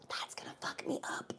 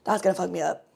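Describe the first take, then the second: First: Breathy whispered aside; whispered That's gonna fuck me up. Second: Said in the usual way. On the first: Shown as a demonstration. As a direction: whisper it to yourself.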